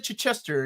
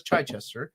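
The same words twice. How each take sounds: First: Chichester as "chih-CHES-ter", short first vowel; corrected pronunciation. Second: Chichester as "CHAI-chester", first part like chai; Curtis's pronunciation. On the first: Telling how they got corrected, contrasting pronunciation. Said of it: "and he corrected me". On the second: Explaining how Curtis says it, quoted pronunciation. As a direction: quote his Chichester with a long "eye" in front. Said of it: "the way Curtis pronounces it". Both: Retold or imitated.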